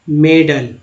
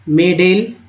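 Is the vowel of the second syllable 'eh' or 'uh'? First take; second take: uh; eh. First: The second vowel sounds like 'uh'. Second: The second vowel sounds like 'eh'. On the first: The speaker calls it right. "ए का उच्चारण अ के रूप में हो रहा है" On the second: The speaker calls it wrong. "यहाँ पर ए बोलना है"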